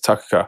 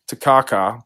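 First: The stress is on the last syllable. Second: The stress is on the second syllable. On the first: "They get into the last one" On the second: "we kind of emphasized the second syllable"

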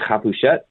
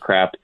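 First: The name is said with a French pronunciation. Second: The name is said with an American pronunciation. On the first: "If you're in Paris, they say Crepuchet, and it sounds really cool" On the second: "but here in America, it's crap"

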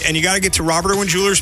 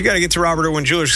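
First: It is said in a lively, excited voice. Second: It is said in a plain, low-energy voice.

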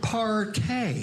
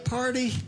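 First: The word ends with an 'ay' sound. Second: The word ends with an 'ee' sound.

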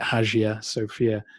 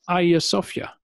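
First: The name is pronounced the English way. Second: The name is pronounced the Turkish way. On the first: "We would read it" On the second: "In Turkey, it's just"

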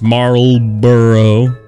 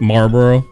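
First: The word is said fully, with every syllable. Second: The word is said quickly, with syllables clipped. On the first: The speaker calls it right. "But it's Marlboro" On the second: The speaker calls it wrong. "I do mispronounce because I am from the South and I just say it real quick"

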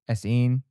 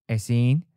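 Both takes have the same delivery.

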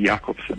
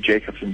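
First: The name has a Danish pronunciation. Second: The name has a South African English pronunciation. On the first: This is the original pronunciation in the name's home country. "it is Danish, so in Denmark it would be Jakobsen" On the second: This is how people in South Africa say it. "most people in South Africa will call me Jakobsen"

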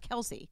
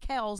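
First: The name is said as two syllables. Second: The name is said as one syllable. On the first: The speaker calls it wrong. "not Kelce" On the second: The speaker calls it right. "it's really Kels"

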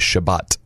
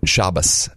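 First: It is said in Sephardic Hebrew, ending in t. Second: It is said in Ashkenazi Hebrew, ending in s.

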